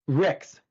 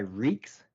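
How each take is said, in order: First: The vowel is a short 'i'. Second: The vowel sounds like 'ee'. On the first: This is the proper form of the name. "like R I C K S" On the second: One branch of the family uses this form. "a subsect of my family that goes by Reeks"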